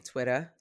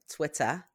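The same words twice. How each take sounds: First: Said in the usual way. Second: "Twitter" said as "Twit-tah"; "Twitter" with a non-rhotic "-ah" ending; playful mispronunciation. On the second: Shown as a demonstration. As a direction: drop the final r in "Twitter", ending on an open "ah". Playful second take of the name.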